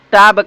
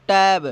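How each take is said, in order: First: टाब with long "aa" vowel, "taab"; wrong pronunciation. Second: टैब with "ae" vowel as in English "tab"; correct pronunciation. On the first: Teacher shows students the cheap-English reading, टाब said with "aa". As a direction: read टाब with an open "aa". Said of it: "cheap अंग्रेजी पढ़े हैं तो इसको पढ़ना चाहिएगा". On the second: Teacher gives students the correct reading, टैब said with "ae". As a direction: say टैब with a front "ae". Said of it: "इसकी उच्चारण क्या हो रही है". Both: Shown as a demonstration.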